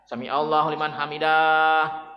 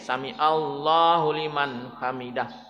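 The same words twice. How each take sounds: First: The final syllable is drawn out long. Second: The final syllable is cut short. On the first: The speaker calls it wrong. "dahnya panjang" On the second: The speaker calls it right. "Dahnya pendek"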